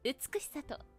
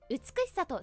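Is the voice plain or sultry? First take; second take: sultry; plain. First: It is said in a sultry, sexy voice. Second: It is said in a plain, ordinary voice. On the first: The speaker calls it right. "セクシー感" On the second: The speaker calls it wrong. "あれは美しさとじゃないのよ"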